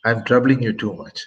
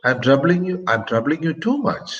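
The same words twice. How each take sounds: First: Said in the usual way. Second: A statement turned into a question by its rising end; rising question tune. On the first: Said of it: "which is a plain statement". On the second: Shown as a demonstration. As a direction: pitch raised at the end on "too much". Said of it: "by raising my, uh, tone, pitch of my voice at the end".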